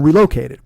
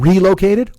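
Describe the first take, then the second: First: The stress is on the second syllable. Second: The stress is on the first syllable. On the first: "with the loc" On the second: "do you like a re"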